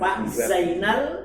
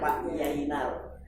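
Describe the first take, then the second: First: The name begins with a z sound. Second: The name begins with a y sound.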